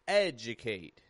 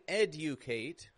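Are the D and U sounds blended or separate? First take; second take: blended; separate. First: The D and U blend into a J sound. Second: The D and U are pronounced separately. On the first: The speaker calls it right. "D and U in the middle of a word blend together like J" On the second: The speaker calls it wrong. "I'm not saying educate"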